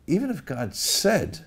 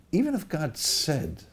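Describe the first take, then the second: First: Slow, stress on Even, falling; Even drawn out and weighted, slowly; new inflection. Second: Slow Even if, stress on Even with a fall; Even said slow and heavy; new inflection. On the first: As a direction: lean hard on Even, then let it drop. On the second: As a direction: weigh Even, then settle. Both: Shown as a demonstration. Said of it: "Let's read it with a different inflection".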